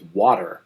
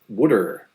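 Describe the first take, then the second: First: Water is said with a general American accent. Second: Water is said with a Philadelphia accent, like wooder.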